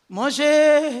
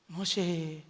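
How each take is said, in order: First: Loud divine call. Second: Soft divine call. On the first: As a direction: call his name out loud and echoing. ("మోషే" అని బిగ్గరగా, దూరం నుంచి పిలుస్తూ) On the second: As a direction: drop low and soft on the last call. ("మోషే" అని మెల్లగా, తగ్గిన గొంతుతో పిలుస్తూ) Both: Acted. God calls Moses from the bush.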